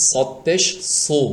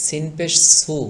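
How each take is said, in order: First: Slow, thick emphatic সদ and সু; heavy, thick letter. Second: Light, thin s in সিন and সু; thin, natural letter. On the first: Teacher contrasts two letters, heavy thick সু. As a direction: darken the s of সু and fill it out. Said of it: "sound বা আওয়াজটি মোটা করলেই". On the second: Teacher contrasts two letters, thin light সু. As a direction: keep সু fine and unthickened. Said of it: "স্বাভাবিক চিকন হবে". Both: Shown as a demonstration.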